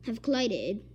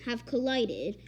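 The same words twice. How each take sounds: The two takes are said the same way.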